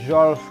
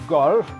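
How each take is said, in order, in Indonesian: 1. Kata golf diawali dengan bunyi Z lembut. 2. Kata golf diawali dengan bunyi G keras. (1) "bukan zolf" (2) "golf karena G O itu berat"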